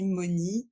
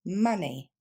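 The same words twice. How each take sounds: First: Money with a round French o, moni; money, à la française; French-style money. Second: Money with a short uh, mani; money, first vowel like fun; money, avec le son de fun; English money. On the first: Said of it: "ni monnaie, ni money". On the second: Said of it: "mais bien". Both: Shown as a demonstration.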